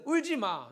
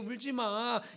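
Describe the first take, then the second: First: It is said sharply, as a rebuke. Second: It is said gently, as comfort. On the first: You have no time to cry over this. The speaker calls it right. "책망에 가까운 말투입니다" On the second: I am fine, so do not be sad. The speaker calls it wrong. "이 말이 아니고"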